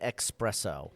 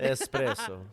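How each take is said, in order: First: It is said with a ks sound. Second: It is said with a plain s sound. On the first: The speaker calls it wrong. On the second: The speaker calls it right.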